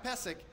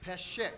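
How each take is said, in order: First: The middle consonant is a plain s sound. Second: The middle consonant is a sh sound. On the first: The speaker calls it wrong. "It's not Pesek" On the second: The speaker calls it right. "it's Peshek"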